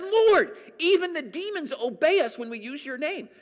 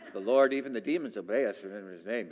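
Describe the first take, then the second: First: It is said in a joyful, excited tone. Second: It is read in a flat, dull tone.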